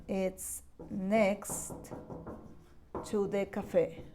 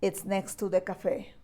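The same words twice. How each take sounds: First: "It's next ... to the cafe" said slowly and softly, with a pause after "next"; slow and soft, chunked for learners; slow modelling. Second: Said in the usual way. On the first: Shown as a demonstration. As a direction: break the phrase into chunks for the class. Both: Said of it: "you can say".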